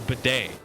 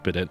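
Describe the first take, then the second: First: The word ends in an ay sound, no T. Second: The word ends with a sounded T. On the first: The speaker calls it right. "Bidet, that's it" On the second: The speaker calls it wrong. "if you've only ever read the word, you'll think it's pronounced"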